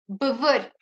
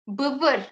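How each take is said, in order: No difference in how they are said.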